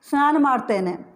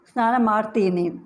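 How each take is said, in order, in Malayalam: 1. ക്രിയ 'tene' എന്ന ശബ്ദത്തിൽ അവസാനിക്കുന്നു. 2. ക്രിയ 'teeni' എന്ന ശബ്ദത്തിൽ അവസാനിക്കുന്നു. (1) "ಓരോ വാക്കും തേനെ വെച്ചാണ് അവസാനിക്കുന്നത്" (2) "ഈ വാക്കുകളൊക്കെ തീനെ വെച്ചും പറയാം"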